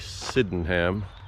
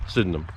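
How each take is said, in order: First: Each syllable is said clearly, as spelled. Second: The syllables are run together quickly.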